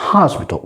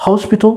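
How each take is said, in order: First: American "hospital", open AH in the first syllable; American-style "hospital"; American accent. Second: British "hospital", rounded O in the first syllable; British-style "hospital"; British accent. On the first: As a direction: model "hospital" in American English, as HAHS-pital. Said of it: "الأكسنت الأمريكاني". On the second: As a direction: model "hospital" in British English, with a short rounded O. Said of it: "الجماعة البريطانيين بيقولوا". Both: Shown as a demonstration.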